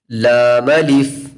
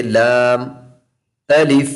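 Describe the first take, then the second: First: लाम अलिफ drawn out slowly as one joined unit; joined letters, slow. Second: लाम and अलिफ said as two separate words with a pause; wrong split reading. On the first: Quran teacher showing children the right joined reading, slow. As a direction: blend लाम into अलिफ without a break. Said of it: "लाम को अलग पढ़ा और अलिफ को अलग पढ़ा". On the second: Teacher demonstrating the wrong, separated reading. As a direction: break लाम off before saying अलिफ. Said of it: "तो ये गलत हो जाएगा". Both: Shown as a demonstration.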